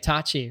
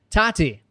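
First: The middle consonant is a ch sound. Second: The middle consonant is a plain t sound.

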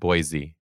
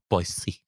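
First: The middle consonant is a buzzing Z sound. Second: The middle consonant is a hissing S sound. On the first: The speaker calls it wrong. "it's not Boise with a Z" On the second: The speaker calls it right. "You got to say it with an S"

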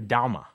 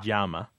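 First: The first sound is like a D. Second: The first sound is like a J. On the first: "In some places it almost sounds like a D" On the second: "Some places it's more like a J"

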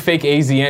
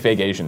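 First: AZN is spelled out as three separate letters. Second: AZN is said as the single word Asian. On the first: "I pronounce it, I do fake AZN"

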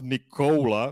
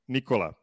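First: The O vowel is drawn out and long. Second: The O vowel is clipped and short. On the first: The speaker calls it wrong. "So it's not Nikola" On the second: The speaker calls it right. "it is a short vowel"

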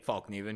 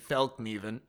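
First: The first vowel is a plain English 'a'. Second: The first vowel is not a plain English 'a'. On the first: This is how the speakers say it, following the spelling. "we say Falkneven because there's an A" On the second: This is the name's native pronunciation. "Proper pronunciation is actually Falkneven"

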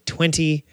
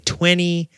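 First: The middle T sound is clearly pronounced. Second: The middle T sound is dropped. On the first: "You're never going to hear an American say 20" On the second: "They're going to say 20"

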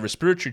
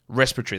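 First: It is said in a non-American accent. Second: It is said in an American accent. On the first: "I say respiratory tract infections" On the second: "What do you Americans say? ... That's what you say, isn't it?"

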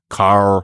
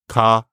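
First: The syllable ends with an R sound. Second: The syllable ends in a vowel with no R. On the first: This is not how syllables work in many African languages. "Not kar" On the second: This is how syllables work in many African languages. "So you have a consonant, vowel, consonant, vowel"

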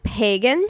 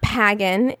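First: The first vowel sounds like the one in day. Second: The first vowel sounds like the one in bag. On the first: The speaker calls it right. "The hard A" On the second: The speaker calls it wrong. "not pagan"

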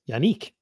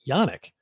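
First: The ending rhymes with 'unique'. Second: The ending does not rhyme with 'unique'. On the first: This is how others say the name. "Like unique" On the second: This is how the speaker has been saying the name. "I pronounce it Yannick"

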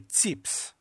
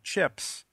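First: It is said in his mother's Greek accent. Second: It is said in a plain English accent.

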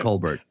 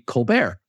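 First: The name is given an English pronunciation. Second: The name is given a French pronunciation. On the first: It signals staying true to the father's form of the name. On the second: It signals a wish for the French form of the family name.

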